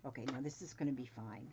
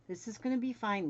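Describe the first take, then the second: First: Said in the usual way. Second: Higher, louder sing-song "fine"; upbeat self-reassurance. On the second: Real, not acted. Sewing vlogger reassuring herself, higher and louder. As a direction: cheer yourself on brightly.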